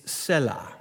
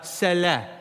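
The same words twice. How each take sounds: First: "Selah" said as SELL-uh; preferred pronunciation. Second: "Selah" said as seh-LEH; short e in both syllables of "Selah"; variant pronunciation. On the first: Pastor gives his own preference, "Selah" as SELL-uh. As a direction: stress the first syllable of "Selah", short e. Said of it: "this is my preference. It's". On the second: Showing another way some pronounce it, "Selah" as seh-LEH. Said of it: "Some pronounce it". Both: Shown as a demonstration.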